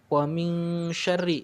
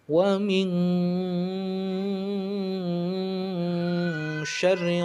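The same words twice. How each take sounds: First: The nasal sound is held for two beats. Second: The nasal sound is held far too long. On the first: The speaker calls it right. "ikhfanya harusnya dua harokat" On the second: The speaker calls it wrong. "malah dibaca lebih dari dua harokat"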